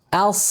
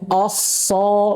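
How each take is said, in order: First: The vowel is thin and light, like a. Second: The vowel is heavy and dark, like o. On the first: The speaker calls it right. "Cara bacanya els" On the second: The speaker calls it wrong. "bukan osso"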